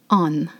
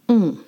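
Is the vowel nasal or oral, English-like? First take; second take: oral; nasal. First: The vowel is oral, with a final n sound. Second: The vowel is nasal, with air through the nose. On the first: The speaker calls it wrong. "you do not pronounce on" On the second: The speaker calls it right. "lift the back of your tongue"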